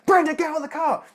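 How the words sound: It is said with rising emotional tension.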